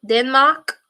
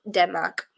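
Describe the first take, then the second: First: Denmark in an odd put-on accent; weird accent. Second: Said in the usual way. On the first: Real, not acted. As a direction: slip into a weird foreign-sounding accent. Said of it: "I just put on a weird accent there". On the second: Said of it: "I just put on a weird accent".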